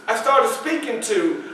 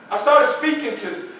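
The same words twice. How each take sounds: The two takes are said the same way.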